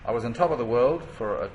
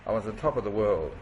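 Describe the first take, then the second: First: Said in the usual way. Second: "top" given dramatic weight, falling at the end; dramatic impact. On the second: Shown as a demonstration. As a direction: land "I was on top of the world" with drama. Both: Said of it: "to give it more dramatic impact".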